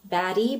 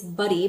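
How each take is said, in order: First: The first vowel sounds like the one in 'bad'. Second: The first vowel sounds like the one in 'bud'. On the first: The speaker calls it wrong. "I foresee a lot of people calling baddie" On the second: The speaker calls it right. "but it's buddy"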